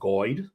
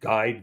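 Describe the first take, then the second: First: The vowel is said in a West Country accent. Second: The vowel is said in a standard accent. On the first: "they'll say guide. Um, that's a that's a, uh, a a West Country accent" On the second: "instead of saying"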